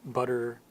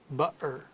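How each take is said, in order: First: The middle T is a quick D-like flap. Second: The middle T is a glottal stop. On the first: "We turn it into almost a D sound" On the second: "a Cockney would sound like"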